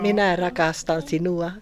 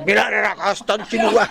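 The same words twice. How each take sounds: First: It is said softly and gently. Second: It is said harshly and sharply.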